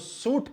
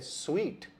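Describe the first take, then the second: First: The word sounds like suit. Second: The word sounds like sweet. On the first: The speaker calls it wrong. "अगर आपने इसको सूट कहा तो ये गलत उच्चारण है।" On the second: The speaker calls it right. "इसका सही उच्चारण है स्वीट"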